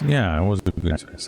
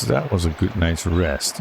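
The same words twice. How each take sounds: First: Said in the usual way. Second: Slow, satisfied, leaning on "That"; slow, mildly contented sigh of a line; contented stretch. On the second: Shown as a demonstration. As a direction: savor it like you just woke up.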